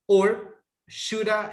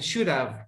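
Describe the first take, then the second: First: It ends in a reduced vowel, no V sound. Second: It ends with a light V sound. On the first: "shoulda is okay" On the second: "with the V sound at the end"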